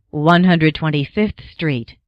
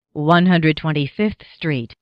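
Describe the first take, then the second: No difference in how they are said.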